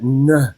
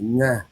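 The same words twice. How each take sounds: First: It is said fully, from the chest. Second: It is said in a flat, level tone.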